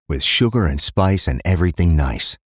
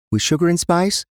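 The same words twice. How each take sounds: First: Said in the usual way. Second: Put-on high little-girl voice, rising at the end; small child's question, pitched way up; young daughter, asking. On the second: Daughter asking dad for their bedtime phrase, high child voice.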